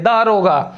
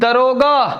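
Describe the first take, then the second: First: The first vowel is long. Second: The first vowel is short. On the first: The speaker calls it right. "उच्चारण भी इसका ऐसे ही होना चाहिए" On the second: The speaker calls it wrong. "ये गलत है"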